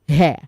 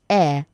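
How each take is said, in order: First: The word starts with an audible H sound. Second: The word starts with a vowel, no H sound. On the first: The speaker calls it wrong. "not hair" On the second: The speaker calls it right. "So you say air"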